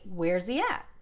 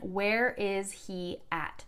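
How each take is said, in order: First: The words are contracted and run together quickly. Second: Every word is pronounced fully and separately.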